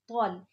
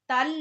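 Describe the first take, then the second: First: The t sound is heavy and full-mouthed. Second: The t sound is thin and light. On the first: The speaker calls it right. "ये भी तो आ गया मोटा" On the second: The speaker calls it wrong. "तल नहीं"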